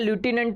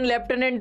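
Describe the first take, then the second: First: The first syllable sounds like 'loo'. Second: The first syllable sounds like 'left'. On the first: This is how the word is spelled. "લખવા જઈએ તો કે લ્યુટિનન્ટ થઈ જાય" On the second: This is how the word is spoken. "Pronunciation લેફ્ટનન્ટ થાય"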